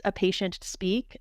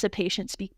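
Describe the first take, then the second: First: Slow, set apart as if quoted; air quotes. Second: Said in the usual way. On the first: Shown as a demonstration. Doctor citing how long patients get to talk, air quotes. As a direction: draw out SPEAK with audible quote marks. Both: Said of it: "air quotes there".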